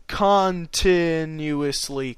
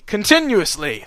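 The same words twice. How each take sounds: First: CONTINUOUSLY very slow, syllable by syllable; "continuously" drawn out with deliberate care; sounded out slowly. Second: Said in the usual way. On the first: Real, not acted. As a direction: stretch out each syllable of "continuously". Reader sounds out a stumbled word.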